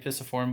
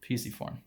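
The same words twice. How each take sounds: First: The first syllable does not sound like pea. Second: The first syllable sounds like pea. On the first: This is the standard pronunciation. "It's actually pisiform" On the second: This altered form is a memory aid. "we can change the, the pronunciation a little bit to help us remember"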